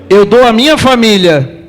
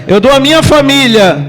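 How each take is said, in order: No difference in how they are said.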